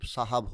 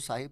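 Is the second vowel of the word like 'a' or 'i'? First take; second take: a; i. First: The second syllable has an 'a' vowel. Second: The second syllable has an 'i' vowel. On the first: This is how people say it today. "अब मेरे नज़दीक साहब सही है" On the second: This is how it used to be said. "एक वक़्त था कि साहिब बोला जाता था"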